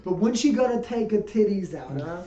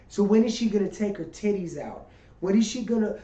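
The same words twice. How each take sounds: First: Brooklyn heckler voice; Brooklyn accent. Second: Put-on heckling in a Brooklyn accent; rough New York heckler. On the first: Retold or imitated. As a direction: tough New York wise guy. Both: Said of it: "I'm talking like I'm from Brooklyn".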